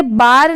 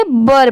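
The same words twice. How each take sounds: First: बार with a long open "aa"; long vowel. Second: बर with a short "uh", like "bur"; short vowel. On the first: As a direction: stretch the vowel of बार, like "baar". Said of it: "इसे बार नहीं पढ़ेंगे". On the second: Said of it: "बर पढ़ेंगे". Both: Shown as a demonstration.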